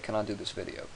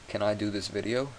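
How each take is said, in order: First: It is spoken in an English accent. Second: It is spoken in an American accent. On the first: "in an English accent, it would be the same way" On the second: "In an American accent, I'll use an American accent here"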